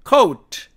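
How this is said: It is said with English pronunciation. "영어로 읽으면"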